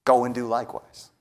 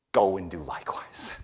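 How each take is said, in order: First: Said in the usual way. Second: Hushed, unvoiced whisper of the command. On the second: Preacher whispers Jesus' command to the congregation, hushed. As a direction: breathe it out as a whisper.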